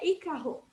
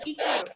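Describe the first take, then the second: First: Ícaro said with a throaty h-like R, icaho; Ícaro as if it had double R, breathy h in the middle; Ícaro with a guttural r as the wrong example; hypothetical wrong version. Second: Ícaro said the proper way, light flicked r; Ícaro with a tapped r, the right version; correct pronunciation. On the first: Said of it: "Se tivesse dois, seria". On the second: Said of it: "Mas é Ícaro". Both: Shown as a demonstration.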